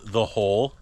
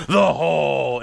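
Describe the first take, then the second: First: Said in the usual way. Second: Loud mock-dramatic story title; shouted deep voice. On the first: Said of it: "and it's called". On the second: Mom announcing the family's made-up story, booming shout. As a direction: boom it out like an epic title. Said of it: "they have to shout".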